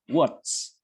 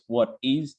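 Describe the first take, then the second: First: The two words merge into one short syllable. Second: Both words are said fully and separately. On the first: "You contract, and it will sound something like what's" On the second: "the contraction is of course what is"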